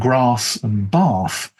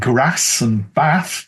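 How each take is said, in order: First: It is said in a southern standard English accent. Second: It is said in a northern English accent. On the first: "rather than" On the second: "if you come from the north of England and you say things like"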